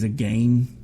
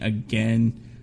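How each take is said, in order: First: It is said in a posh, highbrow-sounding way. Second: It is said in the ordinary, everyday way. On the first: The speaker calls it wrong. "make it sound like it's some highbrow word" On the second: The speaker calls it right. "instead of saying again"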